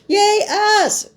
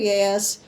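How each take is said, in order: First: It is said with more emphasis. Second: It is said with little emphasis.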